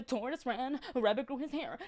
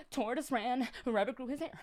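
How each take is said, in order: Both takes have the same delivery.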